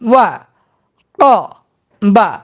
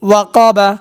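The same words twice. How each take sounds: First: The syllables are said separately with breaks. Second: The syllables are joined into one smooth word. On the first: "ভাঙ্গা ভাঙ্গা উচ্চারণ" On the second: "একসঙ্গে উচ্চারণ করব"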